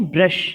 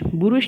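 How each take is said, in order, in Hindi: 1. b और r बिना किसी स्वर के जुड़े हुए हैं। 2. b और r के बीच एक स्वर सुनाई देता है। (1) "नहीं ब्रश" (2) "बुरुष नहीं"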